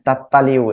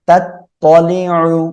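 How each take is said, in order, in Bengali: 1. স্বরধ্বনিগুলো হালকা ও খোলা শোনায়, 'a'-এর মতো। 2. স্বরধ্বনিগুলো গাঢ় ও গোলাকার শোনায়, 'o'-এর মতো। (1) "অনেকে এই জায়গায় ভুল করেন, হ্যাঁ, তাত তালিউ এরকম বলেন" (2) "এভাবে বলতে হবে"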